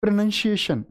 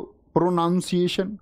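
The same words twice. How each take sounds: First: प्रोनाउंसिएशन said pro-nun-see-ay-shun; प्रोनाउंसिएशन said correctly; correct pronunciation. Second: प्रोनाउंसिएशन said with pro-nown; the wrong way, pronouncing प्रोनाउंसिएशन with pro-noun; mispronounced प्रोनाउंसिएशन; wrong pronunciation. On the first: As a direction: say प्रोनाउंसिएशन with nun, not noun. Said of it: "गलत उच्चारण है". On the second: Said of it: "प्रोनाउंसिएशन गलत उच्चारण है". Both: Shown as a demonstration.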